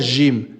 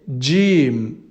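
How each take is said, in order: First: It begins with a soft 'zh' sound. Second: It begins with a 'dj' sound. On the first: The speaker calls it wrong. "c'est pas Jim" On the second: The speaker calls it right. "C'est Jim. / on écrira un D et un J"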